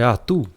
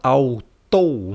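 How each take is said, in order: First: It begins with a plain 'a' sound. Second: It begins with an 'a-u' glide. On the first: The speaker calls it right. "É atu" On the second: The speaker calls it wrong. "você não vai falar autou, não existe autou"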